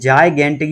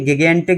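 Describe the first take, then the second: First: The word begins with a j sound and 'eye'. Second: The word begins with a hard g and short i. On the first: The speaker calls it right. "इसे बोलते हैं जायगेंटिक" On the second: The speaker calls it wrong. "ये गिगेंटिक या गायगेंटिक नहीं है"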